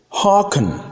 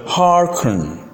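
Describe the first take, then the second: First: "hearken" as "hah-ken", no r; British pronunciation. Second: "hearken" drawn out with a sounded r; American pronunciation. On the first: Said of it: "that's British". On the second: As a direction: say "hearken" American, "har-ken". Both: Shown as a demonstration.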